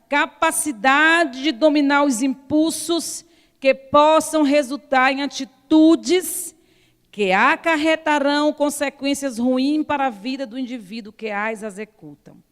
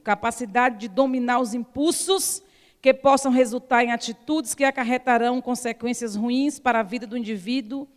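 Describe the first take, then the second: First: It is read more slowly. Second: It is read at a normal speed.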